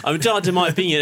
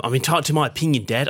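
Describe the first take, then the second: First: Put-on higher, sulky line in a light Australian accent; Australian accent again. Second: Put-on fast, higher sulky teen in an Australian accent; truculent Australian accent. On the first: Son quoting himself to his dad, light Australian accent. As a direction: replay the stroppy Aussie teen retort. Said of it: "You were neighbours there for a second". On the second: Son arguing back to his dad, lightly put-on Australian accent. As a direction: toss it off like a stroppy Aussie teenager. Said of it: "don't know why I did it in that voice".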